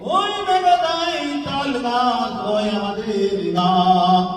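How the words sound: It is delivered in a preacher's sermon style. "আমাদের দেশে হুজুররা যেভাবে ওয়াজ করে ওইভাবে একটু বলেন।"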